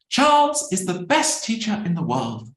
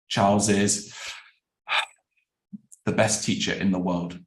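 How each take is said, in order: First: The tone sounds sincere and agreeing. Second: The tone sounds doubtful and disagreeing. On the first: The speaker agrees with the statement. "The first one is agreeing" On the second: The speaker disagrees with the statement. "the second one is disagreeing"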